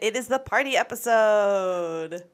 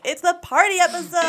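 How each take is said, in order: First: It is said with little energy. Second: It is said with lots of energy. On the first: The speaker calls it wrong. "I should say that with more" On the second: The speaker calls it right. "That's much better"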